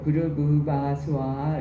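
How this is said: It is said with a smooth Korean-style pronunciation. It is the speaker's habitual way. The speaker calls it wrong. "저는 이게 입에 익어서 그렇긴 한데요. 부르부바스와 이렇게 하는데"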